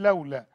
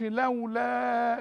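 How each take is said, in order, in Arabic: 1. الحركة الأخيرة تبقى قصيرة بطولها الطبيعي. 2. الحركة الأخيرة تُمدّ أكثر من طولها الطبيعي. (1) "أقول لولا" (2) "ما أقولش لولا، ده مد طبيعي عند الوقف وعند الوصل، ما زودوش"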